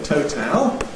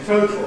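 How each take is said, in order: First: The second syllable has a full strong vowel. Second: The second syllable is a syllabic L. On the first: "a kind of theoretical underlying form" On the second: "Syllabic consonant formation gives you total"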